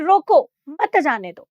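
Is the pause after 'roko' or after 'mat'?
after roko. There is a pause right after 'roko'.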